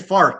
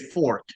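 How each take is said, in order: First: It is said with a local 'ar' vowel. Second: It is said with a standard 'or' vowel.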